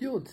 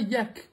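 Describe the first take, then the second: First: The word ends without a k sound. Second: The word ends with a k sound. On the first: The speaker calls it right. "ça se prononce yacht" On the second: The speaker calls it wrong. "c'est pas yak"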